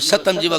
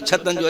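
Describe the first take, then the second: First: The phrase begins with an s sound. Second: The phrase begins with a ch sound.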